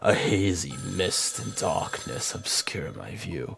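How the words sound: It is read in a put-on narrator voice.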